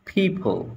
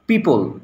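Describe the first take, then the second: First: The first p has a strong puff of air. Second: The first p has no puff of air. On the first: The speaker calls it right. "সঠিক উচ্চারণটা কি? ... পর জায়গায় ফ" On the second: The speaker calls it wrong. "আমরা কি বলি হচ্ছে"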